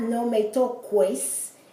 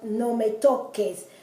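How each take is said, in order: First: The u in toques is sounded like w. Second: The u in toques is not sounded. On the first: The speaker calls it wrong. "So it's not" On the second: The speaker calls it right. "the U is not even pronounced"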